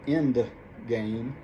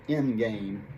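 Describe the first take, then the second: First: The d sound in end is pronounced. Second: The d sound is dropped and end sounds like in. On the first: "instead of end game" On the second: "it sounds like in game"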